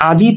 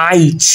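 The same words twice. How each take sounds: First: Said in the usual way. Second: আইচ with i before the final consonant; inserted short i. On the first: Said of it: "সেটা কিভাবে". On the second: Shown as a demonstration. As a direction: slide from a into i in আইচ. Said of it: "দেখেন মাঝখানে কিন্তু রস্বই".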